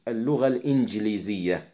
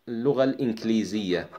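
First: The consonant after the n is a hard g. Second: The consonant after the n is a k. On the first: This is the Egyptian form. "المصريون يكتبونها بالجيم" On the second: This is the Levantine form. "الشاميون يكتبونها بالكاف"

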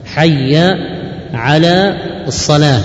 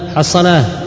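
First: Each word is pronounced separately and in full. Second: The words are run together and clipped short. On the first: The speaker calls it right. "وهي حي على الصلاة" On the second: The speaker calls it wrong. "بعض الناس في الأذان مثلا يقول حصلاه حصلاه"

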